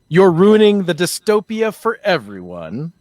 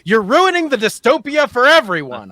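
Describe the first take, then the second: First: It is said in a flat, plain tone. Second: It is said loudly and excitedly, like an exclamation.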